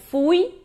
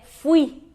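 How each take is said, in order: First: "Fui" as FOO-ee, stress on the U; Portuguese stress. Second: "fui" as fwee, stress on the I; Spanish stress. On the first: Teacher shows the common mistake, "Fui" stressed on U. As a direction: say "Fui" Portuguese style, weight on U. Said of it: "muitas pessoas pronunciam que nem no português". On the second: Teacher gives the correct Spanish, "fui" stressed on I. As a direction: glide through U and land on I in "fui". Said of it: "Muda a sílaba tônica em relação ao português". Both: Shown as a demonstration.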